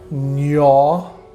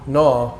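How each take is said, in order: First: It starts with an ny sound. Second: It starts with a plain n sound. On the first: The speaker calls it right. "is pronounced N Y A W" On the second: The speaker calls it wrong. "I thought pronounced silent G"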